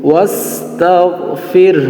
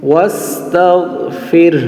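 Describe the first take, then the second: The two takes are said the same way.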